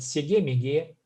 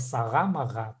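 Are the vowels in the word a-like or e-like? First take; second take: e-like; a-like. First: The word is said with e vowels. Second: The word is said with a vowels. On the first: This is the speaker's everyday dialect form. "я могу сказать "сеге-меге"" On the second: This is the standard literary form. "в литературно "сага-мага", правильно"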